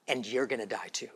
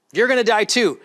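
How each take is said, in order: First: Softly, almost under the breath; hushed. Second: Louder, higher, punching it home; loud repeat. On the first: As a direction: let it fall quiet and ominous. Repeats line, first hushed. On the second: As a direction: hammer the repeat out to the crowd. Repeats line, then loud. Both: Acted.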